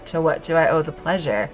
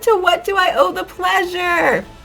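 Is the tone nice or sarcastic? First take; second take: sarcastic; nice. First: The tone is dry and sarcastic. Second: The tone is warm and nice. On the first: The visitor is not really welcome. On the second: The visitor is genuinely welcome.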